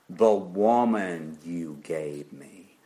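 It is said with a bitter, resentful tone. "perhaps this was the tone of Adam"

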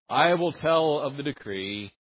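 It is said in a reluctant, grudging tone. The speaker feels obliged to announce it. The speaker calls it wrong. "he does not say it like that. He is not being reluctant"

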